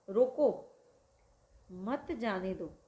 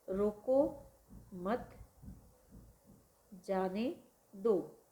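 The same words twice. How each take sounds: First: The pause comes after 'roko'. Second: The pause comes after 'mat'.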